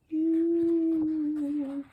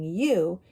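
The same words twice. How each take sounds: First: The vowel is stretched out for a long time. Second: The vowel is said at normal, short length. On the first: "The O sound is long and long" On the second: "instead of saying you"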